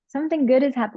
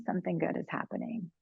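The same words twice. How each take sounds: First: Said louder and higher, good stressed; Something good is hap- pushed out with energy; emphatic. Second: Dropped to a soft, quiet repeat; something good is happening said gently under the breath; softly. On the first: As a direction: hit "good" hard and bright. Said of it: "whenever we're feeling". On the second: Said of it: "Whenever we're feeling". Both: Shown as a demonstration.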